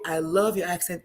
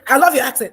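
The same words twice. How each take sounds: First: Easy, inviting compliment, lightly demonstrated. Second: Loud, high, rushed mock compliment; uninviting demo. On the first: Showing the energy with which you say it, inviting. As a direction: say it as a gentle invitation. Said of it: "is inviting". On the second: Showing how you cannot say it, uninviting. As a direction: blurt the compliment out, pushed and loud. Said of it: "you cannot say". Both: Shown as a demonstration.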